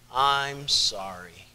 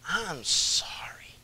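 First: It is said plainly, without much expression. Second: It is said with strong feeling and expression.

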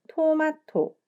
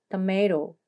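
First: All three syllables get the same stress. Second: One syllable is stressed more than the others. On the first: The speaker calls it wrong. "토마토 이렇게 삼음절로 하나하나 같은 강세로 발음하면 안 돼요" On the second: The speaker calls it right. "tomato 이렇게 발음해야 되는데요"

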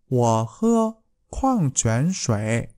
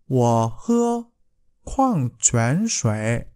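The two takes are said the same way.

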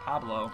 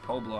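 First: The first vowel sounds like 'ah'. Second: The first vowel sounds like 'oh'. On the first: The speaker calls it right. "I think it's Pablo" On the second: The speaker calls it wrong. "I don't think it's Poblo"

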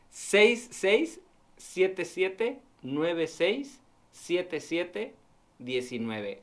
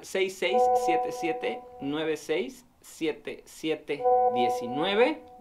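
First: The number is said slowly. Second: The number is said fast.

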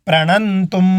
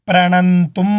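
The two takes are said the same way.

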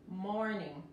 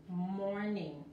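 Both takes have the same delivery.

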